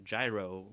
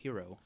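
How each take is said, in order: First: It is said the American way. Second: It is said in a non-American way. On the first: "You you can say it the American way" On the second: "I think the correct pronunciation is hero"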